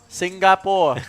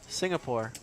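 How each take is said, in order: First: The word is said in a Singaporean accent. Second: The word is said in a Canadian accent.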